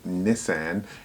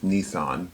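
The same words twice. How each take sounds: First: It is pronounced the British way. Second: It is pronounced the American way. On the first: "The British pronounce it like" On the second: "the American way is"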